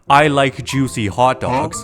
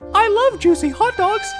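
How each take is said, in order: First: It is said at normal pitch. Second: It is said at a raised pitch.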